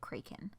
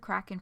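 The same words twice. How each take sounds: First: The first vowel is a hard A. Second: The first vowel is a soft A.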